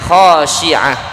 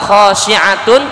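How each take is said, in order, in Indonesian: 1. Kata ini berakhir terpotong dengan 'h' di akhir. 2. Kata ini berakhir dengan suku kata 'tun' yang utuh. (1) "ketika berhenti di akhir ayat tersebut maka bacanya khasyi'ah" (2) "Absaruha khasyi'atun"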